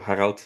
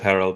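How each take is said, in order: First: The name is said the German way. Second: The name is said the English way. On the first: This is how he is called in Belgium or Germany. "when I'm in, in Belgium or Germany, I call myself Harald" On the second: This is how he is called here, to avoid confusion. "and then here I just go with Harold"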